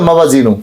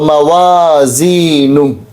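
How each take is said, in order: First: The middle vowels are cut short. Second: The middle vowels are held long. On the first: The speaker calls it wrong. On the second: The speaker calls it right.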